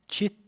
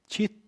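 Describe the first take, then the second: No difference in how they are said.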